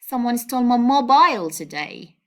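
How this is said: The word mobile carries the main stress. The focus is on the phone itself. "by stressing this word"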